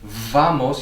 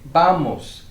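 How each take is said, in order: First: The first sound is a buzzing English v. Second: The first sound is a soft b sound. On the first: The speaker calls it wrong. "you don't say vamos" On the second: The speaker calls it right. "you say vamos"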